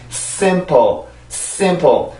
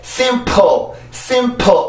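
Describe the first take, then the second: First: Simple with stress on the first syllable, second lighter and falling; correct stress. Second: Simple with the -ple punched as hard as the first syllable; over-hit the p in simple so it becomes a second stress; slow simple, higher, with an exploded p; wrongly stressed second syllable. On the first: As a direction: model simple, strong start and relaxed ending. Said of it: "그래서 발음을 할 때는". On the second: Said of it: "이렇게 해서 소리를 내면 이게 강세가 돼버리죠". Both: Shown as a demonstration.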